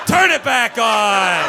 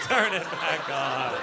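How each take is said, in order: First: Loud, slow, higher shout. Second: Said in the usual way. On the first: Real, not acted. Yelling at the crowd to keep laughing, loud and slow. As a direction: demand it loudly and slowly. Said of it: "crowd went quiet". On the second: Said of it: "repeat after shout".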